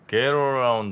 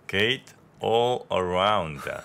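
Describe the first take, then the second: First: It is said casually, in a local accent. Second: It is said carefully, with English-like pronunciation. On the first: The speaker calls it wrong. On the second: The speaker calls it right.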